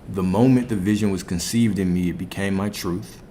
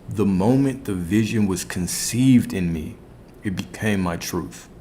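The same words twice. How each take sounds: First: It is said at a normal pace. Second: It is said a little more slowly.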